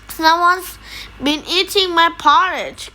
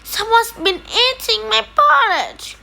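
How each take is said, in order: First: It is said in a huge, deep growl. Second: It is said in a tiny, small growl.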